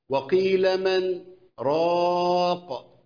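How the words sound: A brief silent pause comes before the last word. "ده بالسكت"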